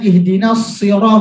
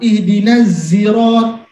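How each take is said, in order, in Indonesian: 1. Diucapkan dengan bunyi s tebal yang berat. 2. Diucapkan dengan bunyi z yang berdengung. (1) "huruf shad" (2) "hanya bisanya zai"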